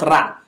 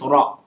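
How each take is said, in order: First: RA said as "rah"; wrong open vowel. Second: RA said as "raw"; correct rounded vowel. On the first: Teacher shows what to avoid, RA as "rah". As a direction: open RA out to a plain "ah". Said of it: "Not ra". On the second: Teacher corrects students' reading, RA as "raw". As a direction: give RA an "aw" vowel. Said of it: "it's pronounced as o". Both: Shown as a demonstration.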